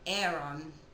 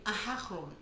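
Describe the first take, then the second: First: The name is said in an American way. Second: The name is said in a Hebrew way.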